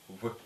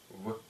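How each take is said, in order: The two takes are said the same way.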